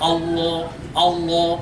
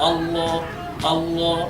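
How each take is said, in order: No difference in how they are said.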